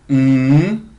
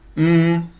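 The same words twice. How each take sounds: First: The hum's pitch rises from low to high. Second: The hum is held on a mid pitch. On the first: "c'est le ton montant ... se mime mm" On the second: "c'est le ton moyen ... se mime mm"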